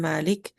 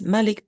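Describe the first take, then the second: First: The first vowel is long. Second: The first vowel is short.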